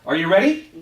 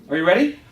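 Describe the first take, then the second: The two takes are said the same way.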